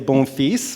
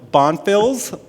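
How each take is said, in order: First: The name is said with French pronunciation. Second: The name is said with English pronunciation. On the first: The speaker calls it right. "which is the French version" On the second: The speaker calls it wrong. "why I'm not pronouncing it right"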